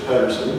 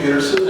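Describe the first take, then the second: First: The surname is said the Norwegian way. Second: The surname is said the everyday American way.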